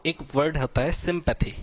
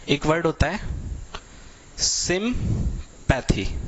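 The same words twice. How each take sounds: First: Said in the usual way. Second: sympathy drawn out very slowly, syllable by syllable; slow stress on sympathy. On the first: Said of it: "introduces the word". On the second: Shown as a demonstration. Teacher to students, spelling out sympathy slowly. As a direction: stretch sympathy out slowly for the class. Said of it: "word drawn out for class".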